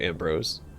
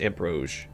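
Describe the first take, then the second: First: The name ends with a plain s sound. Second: The name ends with a sh-like sound. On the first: The speaker calls it wrong. "Is that Am" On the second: The speaker calls it right. "I think it's pronounced Ambrose. Like, more of a S C H sound"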